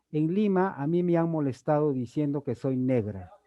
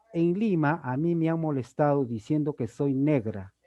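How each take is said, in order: The two takes are said the same way.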